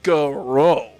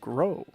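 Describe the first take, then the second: First: The word is said with exaggerated, overemphasized enunciation. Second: The word is said in a plain, ordinary way. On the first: "if I'm overemphasizing it, it's like" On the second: "I pronounce it like the word grow"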